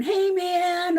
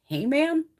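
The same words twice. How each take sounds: First: A raised, cocky "Hey, man"; mock yell. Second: Disbelieving "Hey, man" rising at the end; incredulous echo. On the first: Mimicking the defendant yelling at the judge, mock yell. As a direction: throw out a rude, casual greeting, pitched higher. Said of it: "he just starts screaming and going". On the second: Retold or imitated. Retelling the courtroom outrage, incredulous. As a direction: repeat it as if you can't believe it. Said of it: "I'm like".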